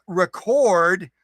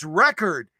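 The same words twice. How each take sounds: First: "record" stressed on the second syllable, re-CORD. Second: "record" stressed on the first syllable, REC-ord. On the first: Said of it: "saying, "It's not record, it's record". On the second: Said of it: "It's not record, it's record". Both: Shown as a demonstration.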